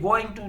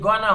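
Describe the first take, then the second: First: Both words are said fully and separately. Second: The words are blended into a short gonna. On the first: "ये गोइंग टू नहीं होता" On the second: "ये गोना होता है"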